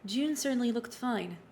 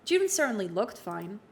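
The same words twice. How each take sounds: First: It is read in an ominous voice. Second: It is read in a plain voice.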